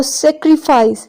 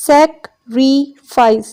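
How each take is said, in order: First: Said in the usual way. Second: Sacrifice very slowly as sac, ri, fice; syllable division. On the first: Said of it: "syllable की division हम देखते हैं". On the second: Shown as a demonstration. Teacher counting syllables for class, sacrifice in three separated beats. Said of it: "three syllables".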